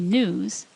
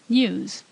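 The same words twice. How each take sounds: First: It begins with a plain n sound. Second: It begins with a ny sound. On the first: This is the American way of saying it. "We say news" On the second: This is the Irish or British way of saying it. "the Irish or British say news"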